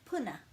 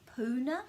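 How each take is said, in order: First: The u vowel is kept short. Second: The u vowel is held long. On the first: The speaker calls it right. "it's a short u sound" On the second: The speaker calls it wrong. "it's not really puna it, because there's no macron"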